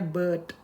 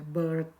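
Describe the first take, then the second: First: It is said British style, without an R. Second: It is said with an American R sound.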